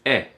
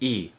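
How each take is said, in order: First: The letter is said like Japanese 'e'. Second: The letter is said as its name. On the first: This is the first sound the letter makes. "The first sound is E. That would be the same as the Japanese A, I, U, E, O" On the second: This is what the letter is called. "The name is E"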